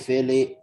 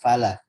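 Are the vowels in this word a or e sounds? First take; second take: e; a. First: The vowels sound like e. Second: The vowels are clear a sounds. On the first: The speaker calls it wrong. "fele fele" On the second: The speaker calls it right. "di jelaskan fathahnya"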